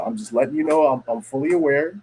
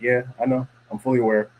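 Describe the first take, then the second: First: Higher-pitched, explaining retold reply; clarify it in a lifted, non-threatening voice; imitating someone smoothing things over; placating clarification. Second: Matter-of-fact retort, level and unbothered; imitating a blunt, offhand reply. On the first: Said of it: "Listen, dog". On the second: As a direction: acknowledge it plainly, without softening. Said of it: "why are you saying it like that".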